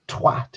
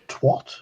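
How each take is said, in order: First: The word sounds harsh and cutting. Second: The word sounds soft and polite. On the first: The speaker calls it right. "twat sounds wonderfully harsh" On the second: The speaker calls it wrong. "It's not twat. As people have said, twat sounds too polite"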